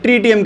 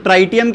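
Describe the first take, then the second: First: ट्रीटियम with a long "ee" vowel, "TREE-tium"; ट्रीटियम pronounced "tree-tee-um"; first syllable as "tree". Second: ट्राइटियम with a long "eye" vowel, "TRY-tium"; ट्राइटियम pronounced "try-tee-um"; first syllable as "try". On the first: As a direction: say ट्रीटियम starting like the English word "tree". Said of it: "कुछ लोग ट्रीटियम कह देते हैं". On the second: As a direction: say ट्राइटियम starting like the English word "try". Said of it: "कुछ लोग ट्राइटियम कहते हैं". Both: Shown as a demonstration.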